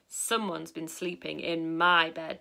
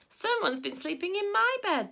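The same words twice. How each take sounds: First: It is said in a big, deep, booming voice. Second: It is said in a medium, middle-pitched voice. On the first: "in a big booming voice" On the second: "in a middle-sized voice"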